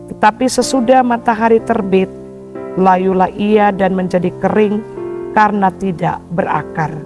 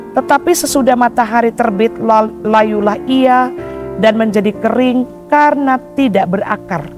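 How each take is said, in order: No difference in how they are said.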